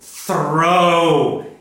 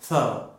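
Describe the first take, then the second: First: The R sound is loud and strong. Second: The R sound is very soft or missing. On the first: The speaker calls it right. "I'm making that R very hard" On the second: The speaker calls it wrong. "Some people make the R too soft and they say tho"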